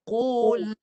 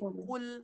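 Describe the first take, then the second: First: The final L is held for one beat. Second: The final L is clipped short. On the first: The speaker calls it right. "bunyikan satu harakat... Baru jalan" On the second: The speaker calls it wrong. "ni ramai yang baca ni. Qul. Salah"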